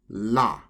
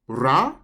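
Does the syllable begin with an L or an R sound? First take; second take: L; R. First: The syllable begins with an L-like sound. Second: The syllable begins with an R-like sound. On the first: "So we either say ra or la" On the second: "So we either say ra or la"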